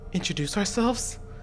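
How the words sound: It is said in a put-on character voice.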